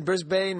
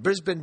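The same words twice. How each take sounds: First: Brisbane as BRIZ-bane, full long A ending; spelling pronunciation. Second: Brisbane as BRIZ-bin, reduced second syllable; local pronunciation. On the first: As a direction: say Brisbane with the ending rhyming with rain. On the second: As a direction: say Brisbane with a short -bin ending. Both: Shown as a demonstration. Offers two pronunciations of city.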